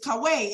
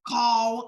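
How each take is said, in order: First: The word ends with a vowel after the 'w'. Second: The word stops right after the 'w'. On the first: The speaker calls it right. "it's kaweh" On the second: The speaker calls it wrong. "Y'all say kaw, kaw. No"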